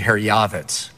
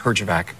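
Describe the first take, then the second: First: The name is said with its original Croatian sounds. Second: The name is said with simplified English sounds. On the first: This is the family's true name. "the proper pronunciation" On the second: This is the name an official imposed. "From now on, your name is"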